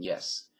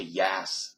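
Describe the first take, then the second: First: Said in the usual way. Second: "yas" with an open short A; LA-style yas. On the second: Shown as a demonstration. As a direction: stretch "yas" wide, as in LA. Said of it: "it takes more energy it".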